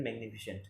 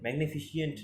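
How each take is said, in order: First: ম্যাগনিফিসেন্ট ending in a short "-shent"; ম্যাগনিফিসেন্ট without an extra i before "-ent"; correct pronunciation. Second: ম্যাগনিফিসেন্ট misread with an extra i, "-fi-shi-ent"; ম্যাগনিফিসেন্ট with its ending split into "shi-ent"; wrong pronunciation. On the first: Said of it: "নয় কিন্তু ম্যাগনিফিসেন্ট". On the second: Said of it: "নয় কিন্তু". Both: Shown as a demonstration.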